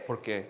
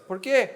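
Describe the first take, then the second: First: Low, soft falling parental answer; mom answering because. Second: Put-on high rising child's question; child asking why. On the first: Acted. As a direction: drop it low, answering the child. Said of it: "a, a mom". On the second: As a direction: pester upward like a kid. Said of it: "and their child".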